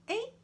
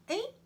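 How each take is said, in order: No difference in how they are said.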